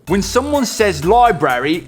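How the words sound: It is spoken in a put-on British accent. The speaker calls it wrong. "oh sorry, no more British accent"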